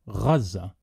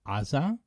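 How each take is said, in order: First: It is said the Arabic way, as Gaza. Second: It is said the Hebrew way, as Aza. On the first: "the Arabic Gaza" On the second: "in Hebrew, we pronounce it Aza"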